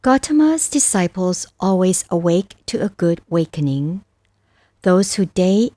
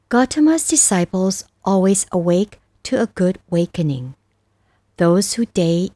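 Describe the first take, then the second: No difference in how they are said.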